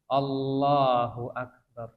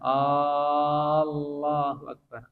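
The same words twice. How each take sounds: First: No vowel is lengthened beyond two beats. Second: The opening vowel of Allah is drawn out. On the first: The speaker calls it right. "Ini dua huruf, dua ketukan" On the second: The speaker calls it wrong. "Yang merubah arti jika memanjangkan hamzahnya"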